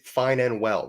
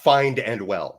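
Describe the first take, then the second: First: The first word ends in a plain n sound. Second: The first word ends with an added d sound. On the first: The speaker calls it right. "It is fine and well" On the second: The speaker calls it wrong. "not find and well"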